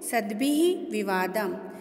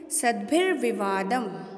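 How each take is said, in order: First: The two words are said separately, broken apart. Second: The two words are joined into one.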